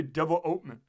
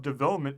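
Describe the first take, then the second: First: Put-on "development" firmly accented on the "ope"; stress on OPE. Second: Put-on "development" the standard way, accented on "vel"; stress on VEL. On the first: President defying the ambassador, "development" stressed hard on "ope". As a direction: insist on "development" with a strong "ope". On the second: President conceding the ambassador's way, "development" stressed on "vel". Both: A narrator's reading. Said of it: "but I say development".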